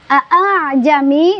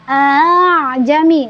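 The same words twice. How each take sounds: First: Both glottal stops are pronounced clearly. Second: The second glottal stop is softened, barely heard.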